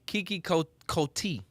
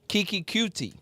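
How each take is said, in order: First: The surname sounds like 'Coty'. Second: The surname sounds like 'Cutie'. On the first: The speaker calls it wrong. "Coty actually" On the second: The speaker calls it right. "I pronounced it wrong. It's it's Q T"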